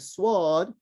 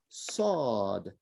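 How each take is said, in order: First: A w-glide sound follows the first consonant. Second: No w-glide sound follows the first consonant. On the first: The speaker calls it wrong. "instead of saying sword" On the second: The speaker calls it right. "get rid of the W"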